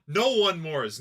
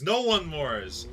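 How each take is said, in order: First: Said in the usual way. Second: Slowly drawn out with a rising end; "No one mores" drawn out slow, rising at the end; slow, mocking repeat. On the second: Real, not acted. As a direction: savour the odd phrase "No one mores" slowly.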